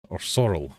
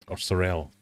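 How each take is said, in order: First: "sorrel" stressed at the front, SORR-ul; stress on first syllable. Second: "sorrel" stressed at the end, suh-RELL; stress on second syllable. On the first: Quiz host reading the last option, "sorrel" as SORR-ul. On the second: Quiz host offering another reading, "sorrel" as suh-RELL. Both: Real, not acted.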